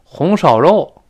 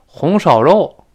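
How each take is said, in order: First: It is said in a Tianjin dialect accent. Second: It is said in a Tianjin dialect accent.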